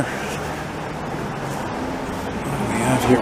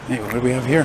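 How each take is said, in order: First: Hushed, drawn-out musing; slow whispered repeat. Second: Said in the usual way. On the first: Real, not acted. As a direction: whisper it slowly to himself.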